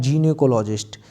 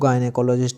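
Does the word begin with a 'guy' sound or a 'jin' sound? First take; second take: jin; guy. First: The first syllable sounds like jin. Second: The first syllable sounds like guy. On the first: "इन्होंने क्या पढ़ा है" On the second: "हम पढ़ रहे हैं इसको"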